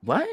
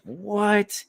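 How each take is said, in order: First: Short, rising "what" after a beat; a quick, small questioning what; stunned disbelief. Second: High, drawn-out incredulous "what"; shocked disbelief. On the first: Storyteller replaying his stunned silence at cousin's confession, short disbelieving question. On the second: Storyteller replaying his reaction to cousin's confession, shocked disbelief. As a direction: stretch it upward in mock disbelief. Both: Retold or imitated.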